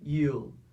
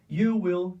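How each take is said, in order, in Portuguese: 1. 'Will' é encurtado e unido em uma única sílaba. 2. 'Will' é dito como uma palavra completa e separada. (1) "você vai pronunciar uma só" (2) "ao invés de duas sílabas"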